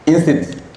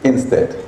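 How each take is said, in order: First: The word ends with an 'it' sound. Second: The word ends with an 'ed' sound. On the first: The speaker calls it wrong. "je prononçais le mot instit en classe" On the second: The speaker calls it right. "Non, c'est pas comme ça"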